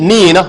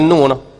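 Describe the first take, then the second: First: The syllable is said with an i vowel. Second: The syllable is said with a u vowel. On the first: The speaker calls it right. "Ni nah, bukan nu nah" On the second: The speaker calls it wrong. "Kalau kita silap sebut, bagi itu jadi nu. Nah, salah tuan-tuan"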